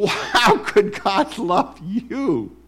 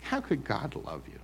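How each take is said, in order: First: High, slow, sneering accuser; mocking voice of the accuser; accuser's voice. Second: Said in the usual way. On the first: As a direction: taunt like the accuser in your head. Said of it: "There's the accuser's voice right away". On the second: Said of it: "repeated plainly".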